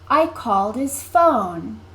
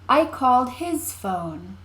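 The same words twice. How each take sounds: First: The stress falls on called and phone. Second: The stress falls on his. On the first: "Called and phone are louder, longer, and higher in pitch than I and his" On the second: "When you stress the word his"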